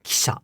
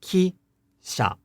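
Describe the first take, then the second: First: Kisha run together with a voiceless i; said quickly. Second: Ki-sha in two separate, fully voiced syllables; said slowly. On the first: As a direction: say kisha quickly, whispering the first vowel. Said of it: "if we say this word quickly". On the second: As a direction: draw out ki, high, then drop on sha. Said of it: "If we say this word slowly". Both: Shown as a demonstration.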